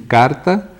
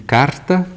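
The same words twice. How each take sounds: First: The R is said without a breathy puff. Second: The R is said with a breathy puff.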